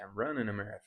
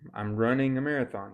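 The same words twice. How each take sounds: First: The final G of running is dropped. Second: The final G of running is pronounced. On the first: "you could say" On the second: "Instead of saying"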